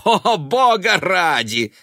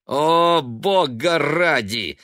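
First: High, loud, slow scoffing cry; scornful. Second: Loud, slow contemptuous scoff. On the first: Son scoffing at his mother's talk of saving. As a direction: scoff with disgust. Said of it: "усмехнулся Бен". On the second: Son scoffing at his mother's prophecy. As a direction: scoff at her with a snort. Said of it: "с презрительным смешком". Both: A narrator's reading.

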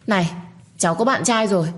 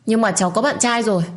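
First: Calling back over her shoulder, raised; a raised shout tossed behind her; shouted back while running. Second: Higher, raised retort; snapping in his face. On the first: Girl running from the stranger, calls back raised. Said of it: "Tôi chạy và gào lên". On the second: Girl snaps at the man standing before her, higher. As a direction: fire it straight at his face. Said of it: "quát vào mặt của anh ta". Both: A narrator's reading.

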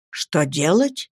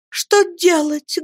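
First: Put-on old servant echoing. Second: Put-on high, slow, anguished girl; girl's despairing cry. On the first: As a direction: repeat it calmly, weighing it. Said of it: "повторила Нехушта". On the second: Girl wails what to do, high and anguished. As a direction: wail the question. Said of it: "воскликнула Мириам".

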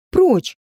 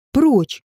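First: Прочь shouted higher and louder; second Прочь cracks up high at the dog. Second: First shout, held back a little; shouting at the dog. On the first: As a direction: repeat the order, pushed harder. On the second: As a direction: order the dog off. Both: A narrator's reading. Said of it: "кричала девушка".

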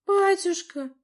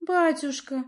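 First: «Батюшка» cried out much higher and louder; desperate cry. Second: Put-on «Батюшка» said timidly in a higher young girl's voice; cautious girl. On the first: Princess desperately cries out to her father. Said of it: "отчаянно воскликнула княжна". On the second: Teen princess cautiously addresses her father, timid. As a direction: address father carefully, unsure of his mood. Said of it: "осторожно обратилась она". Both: A narrator's reading.

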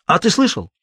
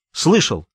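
First: СЛЫШАЛ asked as a challenge, ТЫ pitched up; questioning. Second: СЛЫШАЛ as a short, falling answer; decisive. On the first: Vitka questions Sasha, ТЫ raised high in challenge before СЛЫШАЛ. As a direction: lift ТЫ high, then drop on СЛЫШАЛ, asking. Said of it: "спросил Витька". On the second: Sasha stands up to Vitka, СЛЫШАЛ said with mild resolve. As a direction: answer СЛЫШАЛ with understated firmness. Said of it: "решительно ответил Саша". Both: A narrator's reading.

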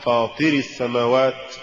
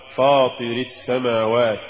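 First: Deliberate recitation slip on فاطر السماوات; mispronounced recitation. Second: Careful model reading of فاطر السماوات; correct recitation. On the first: Narrator shows learners the error in فاطر السماوات, wrong reading. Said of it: "كأن يقال". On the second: Narrator shows learners the fix for فاطر السماوات, correct reading. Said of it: "والصواب". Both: Shown as a demonstration.

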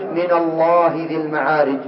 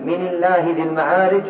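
First: من الله said with a kasra on the nun, so the lam in الله turns thin; the thinned-lam reading set against the correct one; kasra reading for contrast. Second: من الله said "mina llahi", with a fatha on the nun and a full, heavy lam in الله; the correct heavy-lam reading of من الله. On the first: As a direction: give the kasra version so الله loses its heavy lam. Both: Shown as a demonstration. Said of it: "انظروا الفرق بين".

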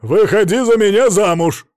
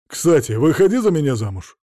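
First: Much louder, higher bellow; громко проорал. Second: Said in the usual way. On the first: A narrator's reading. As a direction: roar the proposal at her. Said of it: "проорал он". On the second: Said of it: "всё так же сердито сказал".

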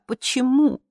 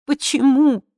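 First: Pleading. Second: Louder, higher anguished cry; the second why breaks into a wail. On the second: Daughter begging her mother, anguished cry. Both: Acted. Pleading question repeated.

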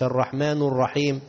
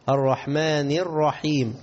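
First: "الرحمن" ending in u, as the mistake; wrong vowel ending. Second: Slow "الرحمن" ending in i; correct vowel ending. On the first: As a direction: demonstrate "الرحمن" with a final damma. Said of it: "مش". (نطق خاطئ بضم آخر «الرحمن») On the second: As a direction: recite "الرحمن" slowly with a final kasra. Correct take after the wrong one. (ترتيل «الرحمن» بكسر النون) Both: Shown as a demonstration.

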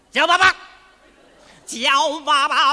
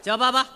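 First: 叫爸爸 shouted higher and louder, then dragged out slowly; bully the child into it, louder and slower; 叫爸爸 barked as a threat, stretched out at the end; scary demand. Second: Said in the usual way. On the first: Acted. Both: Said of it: "你得把孩子再吓着他。".

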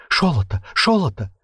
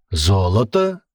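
First: Шолото with ш for з, rising on the second; lisped eager. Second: Said in the usual way. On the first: A narrator's reading. Captive nodding eagerly, lisped Шолото. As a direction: nod along, lisping Шолото. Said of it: "часто закивал Мелкий". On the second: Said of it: "переспросил Рыжий".

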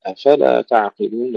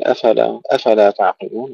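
First: أفلا with a push on the f. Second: أفلا run as one word, fa unstressed; the mistake: no push on the f of أفلا; unpushed fa. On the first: Teacher making the meaning clear, stressed f in أفلا. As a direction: set off the question hamza, stress fa in أفلا. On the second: Teacher showing what not to say, unstressed fa in أفلا. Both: Shown as a demonstration. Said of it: "ندفع الفاء".

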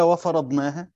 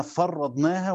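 First: "وفرضناها" with a single light r, fa-ra-dnaha; light reading. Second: "فرضناها" with a doubled, held r, far-ra-dnaha; doubled reading. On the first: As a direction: say "وفرضناها" without doubling the r. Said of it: "بالتخفيف". ("وفرضناها" بتخفيف الراء) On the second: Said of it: "القراءة الثانية بالتجديد". ("فرّضناها" بتشديد الراء) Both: Shown as a demonstration.

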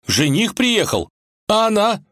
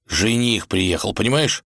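First: Резко выше и громче, медленно; встрепенулся от тревоги; вскинулся. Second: Said in the usual way. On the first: Acted. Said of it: "вскинулся Иван". (Иван переспрашивает волка, встревоженно вскидываясь)

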